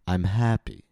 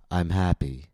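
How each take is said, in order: First: The pitch glides gradually up before falling. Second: The pitch falls without any rise before it. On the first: The speaker seems sarcastic. "Gliding up instead of jumping up" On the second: The speaker seems uninterested, bored or angry. "falling without rising first. Perhaps the student makes the vowel longer, but never jumps up before falling"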